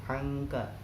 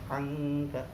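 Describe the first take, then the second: Both takes have the same delivery.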